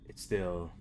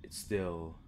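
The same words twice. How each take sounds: The two takes are said the same way.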